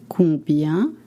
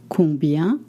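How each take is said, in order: Both takes have the same delivery.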